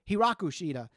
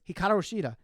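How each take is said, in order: First: The name's second syllable is 'ra'. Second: The name's second syllable is 'ka'. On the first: The speaker calls it wrong. "they say it wrong" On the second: The speaker calls it right. "it's Hikaru Shida"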